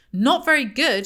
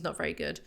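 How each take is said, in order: First: High, loud incredulous echo; angry shout. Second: Said in the usual way. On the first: A narrator's reading. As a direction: throw "Not very good?" back at the wife, shouting. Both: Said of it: "he shouts".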